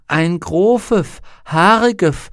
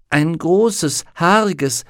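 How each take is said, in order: First: The s sounds are lisped. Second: The s sounds are clear. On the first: The speaker calls it wrong. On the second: The speaker calls it right.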